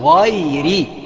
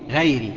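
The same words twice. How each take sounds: First: The first consonant is heavy and full. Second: The first consonant is light and thin. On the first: The speaker calls it right. "في الغين، لأنها من حروف الاستعلاء ... نفخمها ... يبقى هنقول غيري" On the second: The speaker calls it wrong. "اوعى تقول غير المغضوب، غيري، لا مش غيري"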